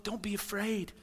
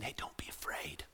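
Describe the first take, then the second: First: Said in the usual way. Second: Soft whispered reassurance; comforting whisper. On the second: Acted. Jesus calming a frightened listener, soft whisper. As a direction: whisper it to calm fear.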